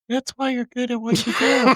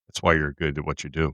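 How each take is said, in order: First: It is said in a put-on female voice. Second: It is said in his normal voice.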